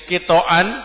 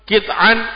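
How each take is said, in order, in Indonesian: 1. Huruf t diikuti vokal a. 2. Huruf t tidak diikuti vokal. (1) "kitoan toknya di fathah" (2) "Kalau toknya disukun kit'an"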